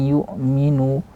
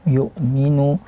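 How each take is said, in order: No difference in how they are said.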